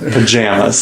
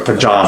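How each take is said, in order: First: The second vowel sounds like the one in jam. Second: The second vowel sounds like the one in father. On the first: This is the northern pronunciation. "It's jam" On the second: This is the southern pronunciation. "the same way you would hear it in the word father"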